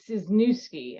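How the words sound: The name is said with an American pronunciation. "as we say it here in the U S"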